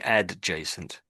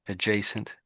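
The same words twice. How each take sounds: First: The D sound is clearly pronounced. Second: The D sound is barely heard. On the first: The speaker calls it wrong. "It's not really adjacent" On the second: The speaker calls it right. "you don't really hear that letter there, the the the D"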